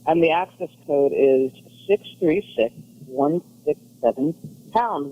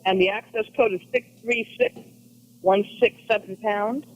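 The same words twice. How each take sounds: First: It is said slowly. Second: It is said at normal speed.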